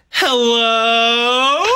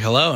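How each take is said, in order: First: High, loud drawn-out hello; high sing-song hello. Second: Said in the usual way. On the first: Acted. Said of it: "I go like this". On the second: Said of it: "he's like".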